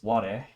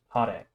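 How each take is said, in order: First: The word begins with a w sound. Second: The word begins with an h sound. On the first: The speaker calls it wrong. "you wouldn't pronounce this ware. That would be incorrect" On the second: The speaker calls it right. "Hare means sunny"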